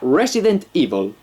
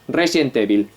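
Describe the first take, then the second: First: It is pronounced with English sounds. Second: It is pronounced with Spanish sounds, run together. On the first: This is how English speakers say it. "Pronunciado en inglés sería" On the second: This is how Spanish speakers casually say it. "Decimos Resident Evil, sin más, del tirón"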